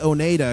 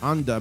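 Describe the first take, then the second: First: The name is said longer, like Oneida. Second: The name is said short, like Unda. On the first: This is the speaker's own preferred way. "I like to say Oneida" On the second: This is how other people say it. "people say it's Unda"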